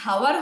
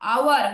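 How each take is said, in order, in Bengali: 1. শব্দটি h ধ্বনি দিয়ে শুরু হয়। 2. শব্দটি স্বরধ্বনি দিয়ে শুরু হয়। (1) "এটার উচ্চারণ কি হাওয়ার হয়? না" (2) "আওয়ার হয়"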